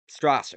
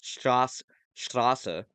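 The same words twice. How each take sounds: First: The name is said with an English pronunciation. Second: The name is said with a German pronunciation. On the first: The speaker calls it wrong. "I'm pronouncing it wrong" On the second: The speaker calls it right. "I'm going to correct it"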